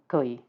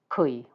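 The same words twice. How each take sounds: First: The word starts with a softer, less K-like sound. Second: The word starts with a clear hard K sound.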